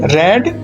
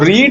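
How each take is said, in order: First: The vowel is short, like in 'red'. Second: The vowel is long, like in 'reed'. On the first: It is the past form of the verb. "जो इसका उच्चारण है, pronunciation है, वो अलग हुआ करता है" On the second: It is the present form of the verb. "जो रीड है उसकी फर्स्ट फॉर्म को हम रीड ही बोला करते हैं"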